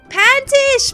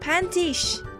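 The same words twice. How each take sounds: First: It is said loudly. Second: It is said quietly.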